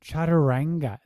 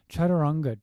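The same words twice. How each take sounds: First: Chaturanga with "a" as in "cat"; mispronounced Chaturanga. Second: Chaturanga with open vowels, "chah-tur-UNG-ga"; correct Chaturanga. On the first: Critic mocking how yoga teachers say it, Chaturanga as "chat-a-RANG-ga". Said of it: "there's no ah in Sanskrit". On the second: Critic showing the Sanskrit way, Chaturanga as "chah-tur-UNG-ga". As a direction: say Chaturanga with no "a" as in "cat". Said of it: "Just say Chaturanga". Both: Shown as a demonstration.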